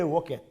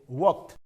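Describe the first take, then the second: First: The ending is an extra 'id' syllable. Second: The ending is a plain 't' sound. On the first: The speaker calls it wrong. "we cannot say walked" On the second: The speaker calls it right. "the t sound must come. ... Like pronounced as W A L K T"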